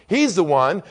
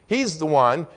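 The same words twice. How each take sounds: The two takes are said the same way.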